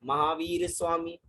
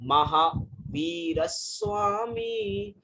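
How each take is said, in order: First: No pause comes after maha. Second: A short pause comes after maha. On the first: The rhythm of the verse is broken. The speaker calls it wrong. "तो यहाँ पे लय हमारी बिगड़ जाएगी।" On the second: The verse keeps its proper rhythm. The speaker calls it right. "महाशब्द बोल के थोड़ा pause लेना है।"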